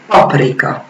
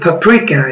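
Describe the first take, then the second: First: It is said with Hungarian pronunciation. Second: It is said with English pronunciation. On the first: "that we pronounce paprika in Hungarian" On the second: "they pronounce it paprika in English"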